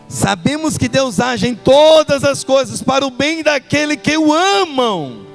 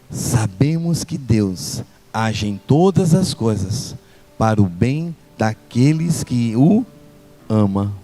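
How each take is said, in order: First: It is spoken loudly with raised volume. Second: It is spoken very softly and quietly. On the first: "agora eu vou aumentar" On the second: "vou falar bem baixinho"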